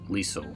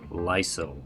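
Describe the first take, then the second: First: The name does not sound like Lysol. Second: The name sounds like the word Lysol. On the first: The speaker calls it right. "Liesel sounds more natural way to say that name" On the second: The speaker calls it wrong. "Like Lysol"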